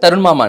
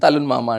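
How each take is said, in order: First: The name is said with an r sound. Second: The name is said with an l sound.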